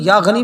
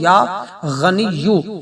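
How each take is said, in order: First: The word ends in a long 'ee' sound. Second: The word ends in a 'yyu' sound. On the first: "या गनी या गनी या गनी भी कह सकते हैं" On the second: "या के ऊपर पेश पढ़ने"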